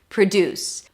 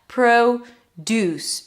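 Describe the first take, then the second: First: The stress is on the second syllable. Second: The stress is on the first syllable. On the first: It is the verb meaning to make something. "second syllable is stressed" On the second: It is the noun meaning farm-grown food. "Here we say it with the O sound. That's the primary stress"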